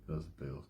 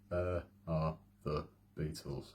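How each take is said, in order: First: It is said at a normal, quicker pace. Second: It is said at a slower, more careful pace.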